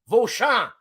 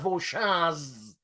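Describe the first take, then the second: First: The final consonant is left silent. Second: The final consonant is pronounced aloud. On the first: The speaker calls it right. "Z is silent" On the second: The speaker calls it wrong. "It's not Vauchamps"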